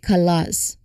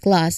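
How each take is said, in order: First: A short vowel is added between k and l. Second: The k and l join with no vowel between. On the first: The speaker calls it wrong. "not class" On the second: The speaker calls it right. "It's just class"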